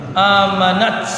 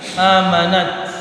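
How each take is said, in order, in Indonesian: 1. Huruf t di akhir mengeluarkan desisan semburan yang kuat. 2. Huruf t di akhir mengeluarkan sedikit hembusan angin. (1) "Terlalu keras" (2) "Percikan ta ini tetap kita mengeluarkan anginnya"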